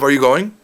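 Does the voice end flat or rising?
flat. The voice stays flat at the end. "Instead of"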